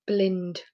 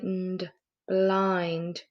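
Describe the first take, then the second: First: "blind" blended with a short i, like "blinned"; wrong short i. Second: "blind" with the long i vowel, as in "kind". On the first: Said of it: "Does that sound like a word that you know?". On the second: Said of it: "That's better". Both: Shown as a demonstration.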